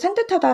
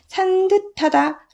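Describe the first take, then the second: First: The consonant after 산 is tense. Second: The consonant after 산 is plain, not tense. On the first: The speaker calls it right. "라고 된소리 발음이 나죠?" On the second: The speaker calls it wrong. "라고 하지 않고"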